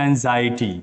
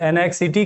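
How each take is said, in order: First: The middle is said with a z sound. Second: The middle is said with a ks sound. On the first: The speaker calls it right. "इसका perfect उच्चारण जो है वो है एंजाइटी" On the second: The speaker calls it wrong. "कुछ लोग एनएक्सिटी कर देते हैं"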